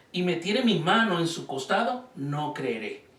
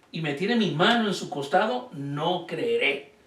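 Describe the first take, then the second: Both takes have the same delivery.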